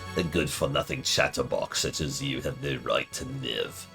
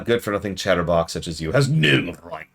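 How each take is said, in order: First: It is said in a Palpatine impression. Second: It is said in his normal voice.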